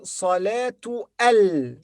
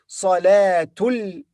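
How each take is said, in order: First: The alif of al is pronounced separately. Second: The words run together with the alif silent. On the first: The speaker calls it wrong. "Don't say Salatu al" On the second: The speaker calls it right. "but say Salatul Maghrib"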